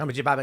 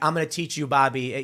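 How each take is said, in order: First: It is said very fast, like Boomhauer. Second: It is said at a normal, plain speed.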